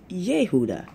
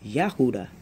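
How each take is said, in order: First: The first vowel is an E sound. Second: The first vowel is an A sound. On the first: "you have that E in there instead of the A" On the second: "the Hebrew pronunciation for Judah"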